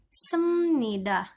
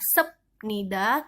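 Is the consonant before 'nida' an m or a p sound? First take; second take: m; p. First: The consonant before nida sounds like m. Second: The consonant before nida sounds like p. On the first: The speaker calls it right. "tapi dibaca semnida" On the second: The speaker calls it wrong. "bukan dibaca sep nida"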